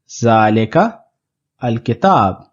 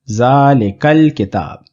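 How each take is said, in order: First: There is a break between the two words. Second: The two words are linked without a break. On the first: The speaker calls it wrong. "there is a bit of a break in between these two" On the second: The speaker calls it right. "This will make the pronunciation more smooth"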